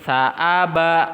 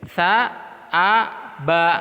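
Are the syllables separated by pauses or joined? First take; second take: joined; separated. First: The syllables are joined without pauses. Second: The syllables are separated by pauses.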